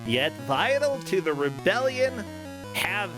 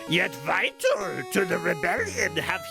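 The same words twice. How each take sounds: First: It is read in the speaker's normal voice. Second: It is said in a put-on character voice.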